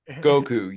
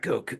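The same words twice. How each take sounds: First: The voice is clear, without a growl. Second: The voice is deep and growly. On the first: "his Piccolo is All Might" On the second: "it was a deep voice"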